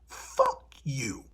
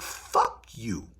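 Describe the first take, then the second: First: It is said with more force. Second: It is said with less force.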